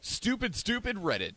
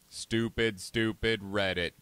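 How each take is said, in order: First: It is said in a normal human voice. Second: It is said in a put-on robot voice. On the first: The speaker calls it wrong. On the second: The speaker calls it right.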